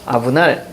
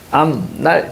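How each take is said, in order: First: The first syllable ends in a b sound. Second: The first syllable ends in an m sound. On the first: "먼저 음절의 끝소리 현상 갑니다" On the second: "비음화로 마무리되죠"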